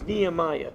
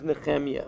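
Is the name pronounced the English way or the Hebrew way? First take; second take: English; Hebrew. First: The name is said with an English pronunciation. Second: The name is said with a Hebrew pronunciation. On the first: "In English, they pronounce it as" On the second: "In Hebrew, his name is"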